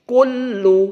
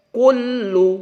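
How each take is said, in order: Both takes have the same delivery.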